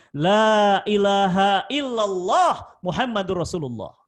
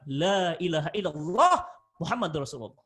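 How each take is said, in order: First: Loud, slow, drawn-out 'La ilaha illallah Muhammadur Rasulullah'; fervent shahada. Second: Said in the usual way. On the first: Retold or imitated. Condemned man vows to recite 'La ilaha illallah Muhammadur Rasulullah', loud and slow.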